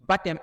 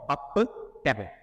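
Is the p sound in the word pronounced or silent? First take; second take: silent; pronounced. First: The p sound is silent before the t. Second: The p sound is pronounced before the t. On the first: The speaker calls it right. "On dit baptême" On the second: The speaker calls it wrong. "et non baptême"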